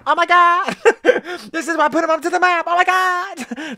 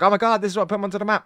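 First: Much higher, giddy mock gush with a laugh breaking in; hammed-up high fanboy voice; Steve impression. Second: Said in the usual way. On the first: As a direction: squeal it like an overexcited fan, then stretch the last oh my God. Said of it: "That's Steve". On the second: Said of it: "people are like".

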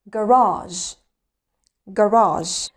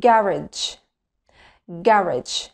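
First: Garage in American English as "guh-RAHZH", stress on the second syllable; American accent demo. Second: Garage in British English as "GA-rij", stress on the first syllable; British accent demo. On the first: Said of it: "وبعدين الأمريكان أكسنت". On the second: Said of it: "هننطق الأول البريتش أكسنت". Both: Shown as a demonstration.

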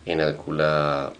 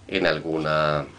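The two takes are said the same way.

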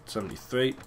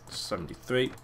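No difference in how they are said.

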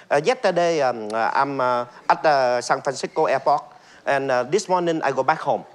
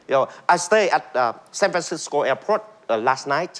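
First: Vietnamese accent. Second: American accent. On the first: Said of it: "rất rõ ràng". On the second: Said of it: "như là người Mỹ nói". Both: Shown as a demonstration.

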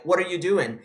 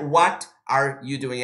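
First: "What are you doing" run together as "whaddayu doing"; linked words. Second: "What are you doing" slow, each word whole; low, slow, unlinked WHAT, ARE, YOU, DOING; separated words. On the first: Teacher showing the right way, "What are you doing" linked. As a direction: join WHAT ARE YOU into one word. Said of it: "é". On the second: Teacher showing the wrong way, "What are you doing" separated. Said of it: "Não é". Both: Shown as a demonstration.

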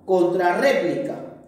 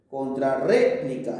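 First: Said in the usual way. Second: "Contrarréplica" lower, broken after a leaned-on RÉ; stress on RE. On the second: Shown as a demonstration. Teacher showing where the tilde goes, stressed RÉ. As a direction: sound out "Contrarréplica", holding the RÉ. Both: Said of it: "lleva tilde en re".

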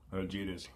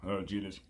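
The two takes are said the same way.

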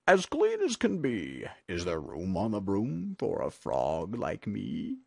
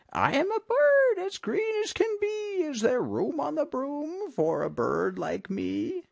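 First: Croaky frog character voice; croaking frog. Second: Very high squawky bird voice; shrieky bird. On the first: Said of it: "then said with a croak". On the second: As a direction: plead in a little bird's high voice. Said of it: "with an ear-splitting shriek". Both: A narrator's reading.

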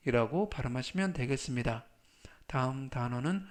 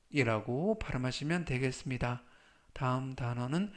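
The two takes are said the same way.

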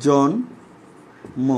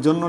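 First: জন্ম broken into "jon... mo", very slowly; ম pronounced. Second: জন্ম said as "jonno", with double n and no m; ম dropped. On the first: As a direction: pause after "jon", then sound "mo" in জন্ম. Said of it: "এখানে ময়ের উচ্চারণ হয়". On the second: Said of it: "এটা কি জন্ম লেখো". (জন্ম-কে "জন্ন" উচ্চারণ) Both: Shown as a demonstration.

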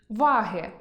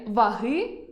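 First: Ваги stressed on а, ва́ги, slowly; stress on the first syllable. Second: Ваги stressed on и, ваги́, slowly; stress on the last syllable. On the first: Teacher reading ва́ги, scales. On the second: Teacher reading ваги́, genitive. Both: Shown as a demonstration. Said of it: "Прочитайте пари слів".

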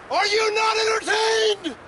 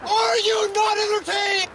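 First: High, slow, roaring arena cry; gladiator shout. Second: High, slow, roaring arena cry again; gladiator shout. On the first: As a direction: bellow it like a triumphant gladiator. Triumphant gladiator movie quote. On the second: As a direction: bellow it to the crowd, arms wide. Repeats the gladiator quote. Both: Acted.

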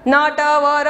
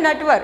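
First: "नटवर" split into four separate sounds; letter by letter. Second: "नटवर" short, letters joined; as one word. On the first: Teacher shows pupils the wrong way, "नटवर" letter by letter. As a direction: draw apart each letter of "नटवर". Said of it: "ऐसे नहीं पढ़ना है". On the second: Teacher corrects pupils' reading, "नटवर" as one single word. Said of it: "क्योंकि वो एक ही शब्द है". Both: Shown as a demonstration.

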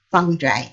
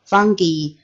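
First: "fungi" ending to rhyme with eye; soft-g pronunciation. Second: "fungi" ending in a hard ghee sound; hard-g pronunciation. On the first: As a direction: say "fungi" with a soft g, FUN-jye. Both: Shown as a demonstration. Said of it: "pronounce the, this word".

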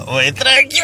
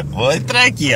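First: Higher, breaking into laughter; can't keep a straight face while saying it; laughing. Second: Said in the usual way. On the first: Real, not acted. Repeats the line laughing. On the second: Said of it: "repeats the line laughing".

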